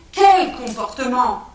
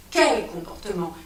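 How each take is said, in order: First: "Quel comportement?" louder and slow, hitting Quel; insistent repeat. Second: Said in the usual way. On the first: Acted. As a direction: demand an answer, each word weighed. Repeated question, second insistent.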